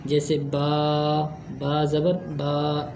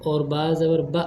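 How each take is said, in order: First: बा ज़बर बा with the बा stretched out slowly; teacher demos the wrong, dragged बा; overlong drawn vowel. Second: बा ज़बर बा with a sudden clipped jerk on बा; teacher demos the wrong, jerky बा; jerked short vowel. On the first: Teacher shows students how not to drag बा, slow stretched vowel. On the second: Teacher shows students how not to jerk बा, abrupt cut-off. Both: Shown as a demonstration. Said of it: "ऐसे भी नहीं पढ़ेंगे".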